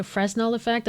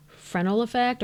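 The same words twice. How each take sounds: First: Fresnel said "FREZ-nel", S sounded. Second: Fresnel said "fruh-NEL", S silent. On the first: Unsure of the term, trying Fresnel with the S sounded. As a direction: pronounce the S in the middle of Fresnel. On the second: Unsure of the term, trying Fresnel with a silent S. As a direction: say Fresnel without sounding the S. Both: Shown as a demonstration. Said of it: "not sure how it's pronounced".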